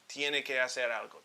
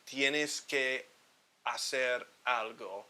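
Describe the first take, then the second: First: The words run together smoothly, dropping the s. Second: Each word is said separately and choppily. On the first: The speaker calls it right. "to make it sound a bit more fluid" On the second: The speaker calls it wrong. "it sounds too chopped up if you say it like that"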